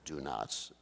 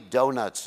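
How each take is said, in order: First: It is said as two separate words, 'do nots'. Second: It is run together to sound like 'donuts'.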